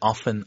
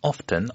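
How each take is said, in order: First: It is said in an American accent. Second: It is said in a British accent. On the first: "미국 캐나다식으로 하면 주로 이제 often" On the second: "영국식으로는 often"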